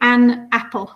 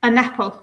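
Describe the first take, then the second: First: The two words are said with a gap. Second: The n runs straight into apple. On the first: "when we learn the alphabet, we often say" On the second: "the n joins with the a of apple"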